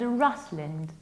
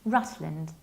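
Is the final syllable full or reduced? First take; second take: reduced; reduced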